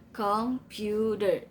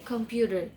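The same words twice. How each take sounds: First: "Computer" slowly in three beats, COM-PU-TER; syllable by syllable. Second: Said in the usual way. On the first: Shown as a demonstration. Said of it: "three syllables".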